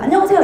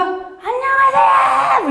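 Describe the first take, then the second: First: Put-on quick, higher little-kid hello; child's greeting. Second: Much higher, slow, drawn-out shouted greeting; child's long shouted hello. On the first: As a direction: chirp it like a small child. Kids greeting her in street. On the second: Retold or imitated. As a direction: yell it across the playground like a little kid. Child shouting hello across playground.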